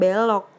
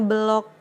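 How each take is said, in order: First: The e is the marked é vowel. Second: The e is a plain, unmarked vowel. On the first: The speaker calls it wrong. "bukan belok" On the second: The speaker calls it right. "e-nya bukan e curek tapi e biasa"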